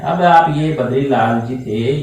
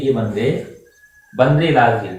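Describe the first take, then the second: First: Badrilal जी spelt out slowly and carefully; Badrilal जी, the proper reading, unhurried; slow correct name. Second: बंदे बद्रीलाल जी, a comic ink-blot misreading; the spoiled name बंदे बद्रीलाल जी, said with a joke; mispronounced name. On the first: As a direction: say Badrilal जी slowly, every sound clear. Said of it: "आप ऐसे नोक रख देते हैं". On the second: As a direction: mispronounce Badrilal as बंद्रेलाल, with a teasing undertone. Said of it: "इनके नाम को ही बिगाड़ के रख दिया". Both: Shown as a demonstration.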